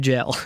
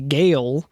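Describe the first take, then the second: First: The word begins with a J sound. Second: The word begins with a hard G sound. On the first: The speaker calls it right. "it's actually called a jail" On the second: The speaker calls it wrong. "calling it a gale for a long time"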